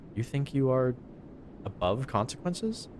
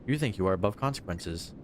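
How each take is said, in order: First: The voice rises at the end like a question. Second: The voice falls at the end like a statement. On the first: It asks whether the listener feels above consequences. The speaker calls it wrong. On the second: It asserts that the listener feels above consequences. The speaker calls it right.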